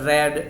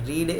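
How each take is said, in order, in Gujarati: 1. સ્વર ટૂંકો છે, 'red' જેવો. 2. સ્વર લાંબો છે, 'reed' જેવો. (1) "પાસ્ટ અને પાસ્ટ પાર્ટિસિપલ ફોર્મમાં રેડ રેડ એવું બોલાય" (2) "રીડ એ એનું સિમ્પલ ફોર્મ છે"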